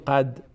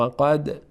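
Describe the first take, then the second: First: The final d is stopped without any bounce. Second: The final d is released with an echoing bounce. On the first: The speaker calls it wrong. "نگیم قد" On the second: The speaker calls it right. "دال از حروف قلقله است، قلقله میشه"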